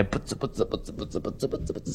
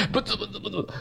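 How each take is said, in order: First: Low whispered mumbling at the wall; muttering to oneself. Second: ブツブツブツブツ mumbled softly through a chuckle; laughing mutter. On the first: Preacher imitating an isolated inmate muttering at the wall, whispered. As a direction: mumble under your breath like a lonely prisoner. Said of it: "ずーっと長く話し出すの". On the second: Preacher joking that some listeners mutter too, soft laughing mumble. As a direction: tease the audience with a giggly mumble. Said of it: "ブツブツブツブツ言ってる方". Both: Shown as a demonstration.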